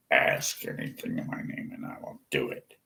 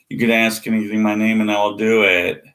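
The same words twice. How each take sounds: First: Whispered verse, the opposite of all caps. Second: Fast and louder, hammering the verse; loud mocking quote. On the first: Shown as a demonstration. Mocking the all-caps Christians with a soft whisper. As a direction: breathe the words out, no voice at all. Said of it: "Let's just type all caps". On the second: Throwing the verse back at believers, a loud mocking quote. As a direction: hammer the promise fast and hard. Quoting the promise loudly and fast.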